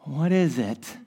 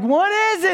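First: Low puzzled question. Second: High puzzled question. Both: Retold or imitated. Puzzled by fuzzy ultrasound image.

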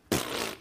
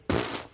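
First: Scoffing pfft. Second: Sharp lip puff of scorn; scoffing pfft. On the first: Pastor teaching the congregation to say pfft, a lip puff. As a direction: puff it through the lips. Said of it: "you gotta get the lips moving". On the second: Pastor demonstrating Sarah's scoffing Hebrew sound, a lip puff. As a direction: spit out a dismissive pfft. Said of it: "That's the Hebrew". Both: Shown as a demonstration.

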